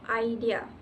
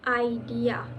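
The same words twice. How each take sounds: First: The stress is on the second syllable. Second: The stress is on the first syllable. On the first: "is stressed on the second syllable" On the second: "with the stress on the first syllable"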